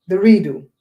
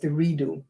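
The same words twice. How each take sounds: First: "The redo" punched much louder, falling; stress on redo. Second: Said in the usual way. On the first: Shown as a demonstration. Author repeating her book title, louder on "redo". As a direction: hit "redo" hard the second time.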